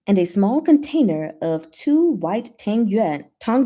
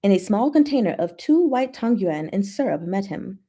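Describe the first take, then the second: First: "tang yuan" said as "tang" with a flat a, clipped; fumbled tang yuan. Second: "tang yuan" said as "tahng yoo-en", deliberate; careful tang yuan. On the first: Reading the novel aloud, trips over the dish name tang yuan. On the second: Retaking the line to show she knows Mandarin, careful pronunciation. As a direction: land "tang yuan" cleanly this time. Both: Shown as a demonstration. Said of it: "Let's do that again. I know Mandarin".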